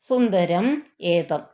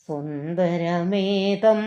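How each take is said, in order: First: The two words are said separately, unlinked. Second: The two words are linked into one word. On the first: "പിരിച്ചു പറയണം" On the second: "ചേർന്നോർത്ത്"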